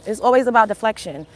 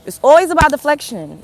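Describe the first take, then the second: First: Said in the usual way. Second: It's always about deflection, with "always" pushed higher and louder; emphatic repeat. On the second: Real, not acted. To the chat, hitting "always" harder the second time. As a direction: lean hard on "always" on the repeat.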